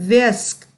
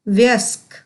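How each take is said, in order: No difference in how they are said.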